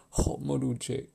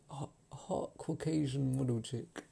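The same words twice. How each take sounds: First: Said in the usual way. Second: Slow, leaning hard on "Caucasian"; stress on Caucasian. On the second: Shown as a demonstration. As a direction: drag it out and hit "Caucasian".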